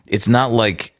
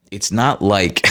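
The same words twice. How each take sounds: The two takes are said the same way.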